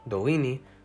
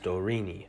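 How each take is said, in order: First: The middle consonant is the native Dolini R. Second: The middle consonant is an English R. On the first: The speaker calls it right. "when I'm pronouncing the name of the language" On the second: The speaker calls it wrong. "the English R is not used"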